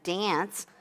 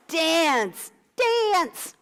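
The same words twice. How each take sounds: First: Dance with a flat Midwest a; dance in a plain Midwest voice; Midwest accent. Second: Dance said the Midwest way; flat American Dance with a plain a; Midwest accent. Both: Shown as a demonstration. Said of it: "My Midwest accent".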